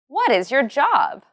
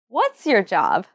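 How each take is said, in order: First: What is is said as two full words. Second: What is is contracted to one syllable, what's.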